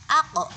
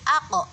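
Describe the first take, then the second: No difference in how they are said.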